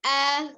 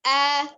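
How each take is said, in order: Both takes have the same delivery.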